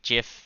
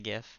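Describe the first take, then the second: First: The word begins with a j sound. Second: The word begins with a hard g sound. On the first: "like like peanut butter like Jif Jiffy peanut butter" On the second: "I say GIF"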